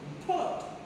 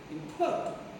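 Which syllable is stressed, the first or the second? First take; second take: second; second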